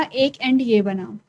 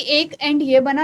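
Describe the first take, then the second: First: एक एंड ये बना slowed down, each word weighted; teacher slows एक एंड ये बना to stress it; slow emphatic repeat. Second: Said in the usual way. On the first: Shown as a demonstration. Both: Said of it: "repeats phrase for emphasis".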